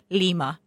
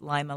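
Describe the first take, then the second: First: It is pronounced like the capital of Peru. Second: It is pronounced like the bean name. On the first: It names the foreign capital. "not Lima like in Peru" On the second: It names the Midwest town. "Lima like the bean"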